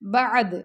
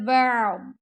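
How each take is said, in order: First: The final consonant is released with an echoing bounce. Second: The final consonant stays held inside the mouth. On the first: The speaker calls it wrong. "अगर आप पढ़ेंगे ना बअद तो ये गलत है" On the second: The speaker calls it right. "यानी द्वाद की आवाज़ मुंह के अंदर ही रह जाएगी"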